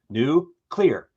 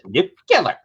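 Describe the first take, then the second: First: It is said as 'new clear' without an extra u. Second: It is said as 'nucular' with an extra u sound. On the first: The speaker calls it right. "There's no fucking second U" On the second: The speaker calls it wrong. "to be that dumb to pronounce it"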